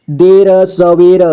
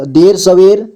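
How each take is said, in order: First: देर सवेर slowly, each र sounded apart; syllable by syllable. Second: Said in the usual way. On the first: Shown as a demonstration. Teacher breaking down देर सवेर for learners, slowly syllable by syllable. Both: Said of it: "जोड़ जोड़ करके".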